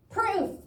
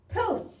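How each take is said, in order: First: High shriek of "Proof!" with a clear r; shrieked "Proof!", the r sounded out; "Proof!" yelled high, r put back in; screamed correction. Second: High shriek of "Poof!" with no r; shrieked "Poof!", dropping the r sound; "Poof!" yelled high, missing the r; screamed mistake. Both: A narrator's reading. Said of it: "screamed a voice out of nowhere".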